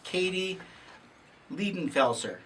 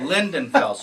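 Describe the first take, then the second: First: The first syllable is 'leed' without an n. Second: The first syllable is 'lind' with an n. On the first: The speaker calls it wrong. "Did I say it right?" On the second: The speaker calls it right. "That was close. Lindenfelser"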